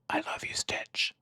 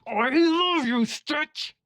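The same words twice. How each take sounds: First: It is said very quietly. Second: It is said very loudly.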